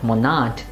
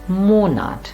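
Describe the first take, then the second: First: The stress is on the second syllable. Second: The stress is on the first syllable. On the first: The speaker calls it wrong. "it's not monat" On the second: The speaker calls it right. "it is monat, lala"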